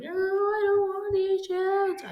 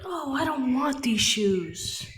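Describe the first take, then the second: First: Put-on much higher whining child voice; a bratty kid pitched way up, whining; tantrum kid. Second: Put-on higher, whiny kid voice; mock a kid throwing a tantrum; bratty child whining about shoes. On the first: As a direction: squeal it like a kid mid-tantrum. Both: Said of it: "throwing an actual tantrum".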